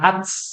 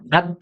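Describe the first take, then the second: First: The final t ends in a hissing s-like sound. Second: The final t ends in a short puff of air. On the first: The speaker calls it wrong. "bukan ats" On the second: The speaker calls it right. "dia percikan aja ya"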